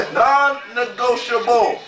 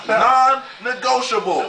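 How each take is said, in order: First: Non-negotiable slow, syllable by syllable; enunciated clearly. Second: Non-negotiable said slowly, each syllable crisp; enunciated clearly. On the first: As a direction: draw out Non-negotiable, crisp and firm. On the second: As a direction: spell out Non-negotiable slow and firm. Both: Shown as a demonstration. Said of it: "I'm enunciating very clearly".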